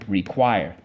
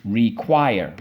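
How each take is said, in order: First: Said in the usual way. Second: "Require" split as re, quire; both syllables of "Require" given full weight. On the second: Shown as a demonstration. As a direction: chant "Require" in two separate beats. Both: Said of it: "Let's go".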